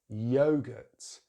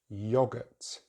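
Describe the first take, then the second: First: The first vowel is a diphthong. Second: The first vowel is short. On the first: "in American English, they use a diphthong" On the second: "In British English ... you use the short vowel sound"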